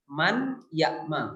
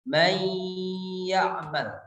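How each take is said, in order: First: The n is pronounced clearly before the y. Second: The n merges into a held nasal y. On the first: "itu dibaca izhar" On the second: "ditahan gunnahnya itu selama dua harokat"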